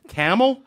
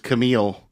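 First: The name sounds like the word camel. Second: The name does not sound like camel. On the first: The speaker calls it wrong. "Guess what you don't say? ... it is not pronounced camel" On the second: The speaker calls it right. "I guess the guy's name was Camille"

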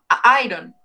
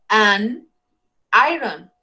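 First: A bare vowel article runs into the noun. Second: An n sound links the article to the noun. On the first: The speaker calls it wrong. "A iron, eso no está bien dicho" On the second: The speaker calls it right. "it is an... An iron"

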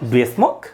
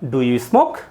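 First: 'Do you' is blended into one reduced syllable. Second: 'Do you' is said as two full separate words. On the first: The speaker calls it right. "ফ্লুয়েন্ট হওয়ার চেষ্টা করবেন" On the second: The speaker calls it wrong. "একজন fluent native speakers কখনোই বলেন না ডু ইউ smoke"

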